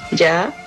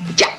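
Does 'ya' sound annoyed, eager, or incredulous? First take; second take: eager; annoyed. First: It sounds eager, meaning right away. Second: It sounds annoyed, meaning stop it.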